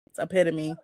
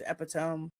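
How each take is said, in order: First: The word is said the usual way. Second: The word is sounded out as it looks in print. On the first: The speaker calls it right. "that don't sound right. It's epitome" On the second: The speaker calls it wrong. "I too read it as Epitome"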